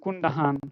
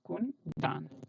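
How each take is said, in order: First: An h sound is heard in the second syllable. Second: No h sound is heard in the second syllable. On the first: The speaker calls it wrong. "then my name will become Kundahan. That is not right" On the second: The speaker calls it right. "this will be silent, this H"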